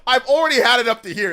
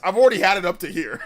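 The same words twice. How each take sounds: First: Louder, fed-up outburst; fed up, push it out louder; exasperated. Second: Exasperated through a laugh. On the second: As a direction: laugh it out, fed up. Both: Real, not acted.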